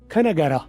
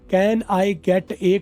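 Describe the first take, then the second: First: The words are run together into one reduced chunk. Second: Each word is said separately and fully.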